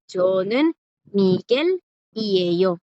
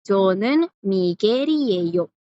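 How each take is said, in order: First: "저는 Miguel y ello" word by word, gaps between; with pauses. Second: "Miguel y ello" run together as Migeri-eyo; no pause before "y ello", L becomes R; more Korean, linked. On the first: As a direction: pause after "저는" and after "Miguel", keeping the L. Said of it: "pueden pronunciarlo con pausa, no hay problema". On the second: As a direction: link "Miguel" into "y ello" with a tapped R. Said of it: "si lo dicen más rápido, esa R sonaría como R". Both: Shown as a demonstration.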